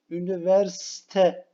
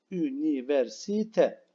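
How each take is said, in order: First: Üniversite said fast, dropping the i; teacher shows the rushed Üniversite; wrong form. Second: Üniversite said slowly with every syllable; slow careful. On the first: Teacher to pupils, rushed Üniversite. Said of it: "Üniversite değil". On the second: Teacher to pupils, slow unhurried Üniversite. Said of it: "Gayet rahat söyleyelim". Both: Shown as a demonstration.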